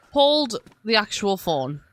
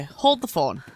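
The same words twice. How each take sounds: First: Insistent escalation, stress on Hold; emphatic hold the phone. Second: Said in the usual way. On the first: Real, not acted. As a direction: lean hard on Hold, then land actual phone.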